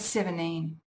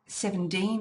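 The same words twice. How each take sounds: First: No T or D follows the N. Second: A D sound follows the N. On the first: "if I drop them both" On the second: "with a D"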